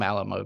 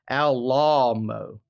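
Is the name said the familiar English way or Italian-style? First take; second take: English; Italian-style. First: It is said like the familiar English word. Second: It is said in an Italian-sounding way. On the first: The speaker refuses the man's preferred form. "I'm going to call him Alamo because he's not someone whose opinion I respect" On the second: This is how the man said his own name. "It was Alamo"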